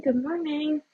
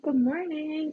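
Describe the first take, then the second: First: Bright, high-pitched repeated hello; cheerful high greeting. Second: Cheerful high greeting. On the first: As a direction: sing out the greeting to newcomers. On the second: Greeting new viewers. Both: Real, not acted.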